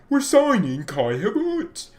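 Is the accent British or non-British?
British. It is said in a British accent.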